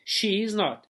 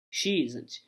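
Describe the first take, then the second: First: Said in the usual way. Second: Isn't said as one lower, softer word; contracted form. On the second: Shown as a demonstration. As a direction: run she isn't together as /ʃi zənt/. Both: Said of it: "Olha aqui, ó".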